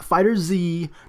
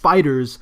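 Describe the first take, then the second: First: The final Z is said as a letter name. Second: The name ends with a plain z sound. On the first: The speaker calls it wrong. "not Fighter Z" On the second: The speaker calls it right. "it's pronounced FighterZ"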